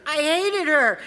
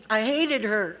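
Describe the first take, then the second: First: HATED her, pushed higher in pitch; emphatic repeat. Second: Said in the usual way. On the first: Real, not acted. Speaker confessing resentment to the meeting, emphatic. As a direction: say it with more force, lifting HATED.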